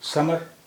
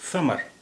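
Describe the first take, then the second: First: It begins with a plain hissing s sound. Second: It begins with a th sound, tongue between teeth. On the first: The speaker calls it wrong. "यानी हिंदी वाला सा" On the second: The speaker calls it right. "यानी अरबी वाला सा"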